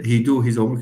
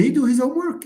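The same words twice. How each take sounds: First: Said in the usual way. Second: High-pitched mocking echo of a mistake; mocking recast. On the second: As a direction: parrot the error back in a much higher voice. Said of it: "He can make fun of you".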